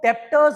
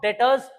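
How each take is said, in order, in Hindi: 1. t से पहले एक b जैसी ध्वनि सुनाई देती है। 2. t से पहले कोई b ध्वनि सुनाई नहीं देती। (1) "इसको डेप्टर्स मत बोलना" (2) "बी साइलेंट है"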